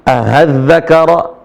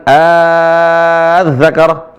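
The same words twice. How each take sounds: First: Az-Zakara- with the hamza changed to a long plain a; Az-Zakara- read with full ibdal; wrong ibdal reading. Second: Az-Zakara with the second hamza eased toward h; Az-Zakara with a half hamza; softened tashil reading. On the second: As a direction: show the eased in-between vowel in Az-Zakara. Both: Shown as a demonstration. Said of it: "bukan Az-Zakara".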